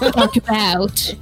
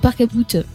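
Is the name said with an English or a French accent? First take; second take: English; French. First: The name is said with an English accent. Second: The name is said with a French accent. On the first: "La mauvaise prononciation anglaise" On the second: "Ah, non"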